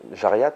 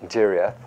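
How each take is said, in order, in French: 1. Le nom se dit avec des sons français. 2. Le nom se dit avec des sons anglais.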